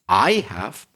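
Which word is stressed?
I. The stress falls on the word I. The contrast is between two people's experiences. "I can stress the word I"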